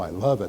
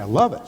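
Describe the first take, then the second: First: It is said flatly, without feeling. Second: It is said with energy and feeling. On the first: The speaker doesn't really mean it. The speaker calls it wrong. "I don't say, oh" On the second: The speaker truly means it. The speaker calls it right. "Put your emotions into the positive energy"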